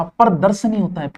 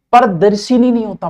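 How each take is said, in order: First: प्रदर्शनी with short schwa after श; the correct प्रदर्शनी, falling; correct form. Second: प्रदर्शिनी with an i after श, rejected; the common mistake प्रदर्शिनी; wrong form. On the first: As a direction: settle on प्रदर्शनी. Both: Shown as a demonstration.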